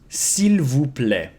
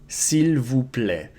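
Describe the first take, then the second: First: The first word is said fully as 'seel'. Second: The first word is said fully as 'seel'.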